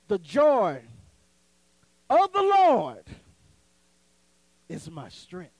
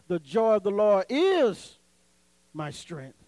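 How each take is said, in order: First: The stress falls on the words of the Lord. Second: The stress falls on the word my. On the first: "So you got to put it of the Lord" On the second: "so you put emphasis on the my"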